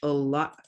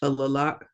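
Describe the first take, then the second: First: The doubled sound is held as one long sound. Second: The doubled sound is said twice, separately. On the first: The speaker calls it right. "we just draw it out a little bit" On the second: The speaker calls it wrong. "which kind of sounds weird"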